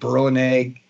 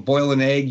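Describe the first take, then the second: First: 'Boil' is said like 'burl', Brooklyn style. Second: 'Boil' is said with a standard 'oy' vowel. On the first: "you would burl an egg" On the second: "or boil an egg"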